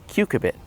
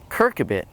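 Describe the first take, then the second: First: The second syllable has an r: cu-cur-bit. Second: The first syllable has an r: cur-cu-bit. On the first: The speaker calls it right. "it's C U C U R B I T" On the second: The speaker calls it wrong. "the way I misspell it when I pronounce it"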